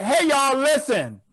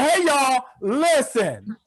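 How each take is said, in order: First: Loose, offhand "Hey, y'all, listen"; casual flight attendant call. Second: Casual flight attendant call. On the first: Mimicking the Spirit flight attendant to the audience, offhand call. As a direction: call to the cabin like you don't care. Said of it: "That's how she said it". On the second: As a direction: drawl the call out lazily. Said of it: "she said". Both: Retold or imitated.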